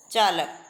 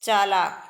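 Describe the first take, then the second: First: चालक with a brief vowel before क; short final "a". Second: चालाक said loud, second vowel held; long "aa" vowels. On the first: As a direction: keep the second vowel of चालक short, pitch falling. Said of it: "ए के उच्चारण में कम समय लगता है". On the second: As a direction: stretch the "aa" before क in चालाक. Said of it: "इससे थोड़ा अधिक समय लगता है". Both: Shown as a demonstration.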